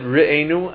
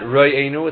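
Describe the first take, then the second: First: The first vowel sounds like e. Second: The first vowel sounds like o. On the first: It is a request to be looked after. The speaker calls it right. "we pronounce it Re'enu" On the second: It describes who looks after us. The speaker calls it wrong. "and not Re'enu, it's not a description"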